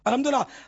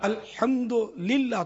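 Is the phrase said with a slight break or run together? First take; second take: run together; slight break. First: It is said quickly with no break. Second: It is said with a slight break inside. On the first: The speaker calls it wrong. "یہ عموماً نکلتا ہے" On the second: The speaker calls it right. "تھوڑا رک کے بولے نا"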